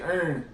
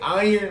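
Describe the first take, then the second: First: It is said in a Mississippi Southern accent. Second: It is said in a general American accent. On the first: "We say earn" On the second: "people say iron"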